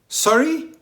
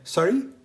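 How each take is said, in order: First: It sounds offended, reacting to an insult. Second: It sounds puzzled, asking for a repeat.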